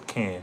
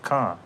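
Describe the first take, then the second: First: The vowel sounds like the one in 'cat'. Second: The vowel sounds like the one in 'father'. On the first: The speaker calls it wrong. "they don't pronounce it as can" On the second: The speaker calls it right. "They pronounce it as con"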